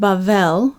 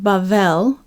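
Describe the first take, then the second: First: The middle consonant is a 'v' sound. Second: The middle consonant is a 'v' sound.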